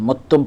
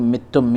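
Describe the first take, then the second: First: The first vowel is a 'u' sound. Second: The first vowel is an 'i' sound. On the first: This is another accepted reading of the word. "ज़म्मा यानी पेश के साथ पढ़ा है" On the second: This is one accepted reading of the word. "मित्तुम मीम के ज़ेर के साथ पढ़ा है"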